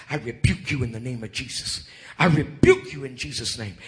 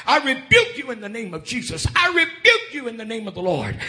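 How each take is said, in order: First: Said in the usual way. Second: High-pitched, forceful retold rebuke; urgent rebuke. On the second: Woman rebuking the dogs chasing her, urgent and high. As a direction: cry it out against the attackers.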